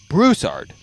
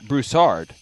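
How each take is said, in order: First: The 'ooh' sound carries the stress. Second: The 'ooh' sound does not carry the stress. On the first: The speaker calls it right. "The emphasis is on the ooh" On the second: The speaker calls it wrong. "not Broussard"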